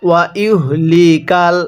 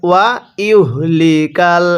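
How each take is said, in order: Both takes have the same delivery.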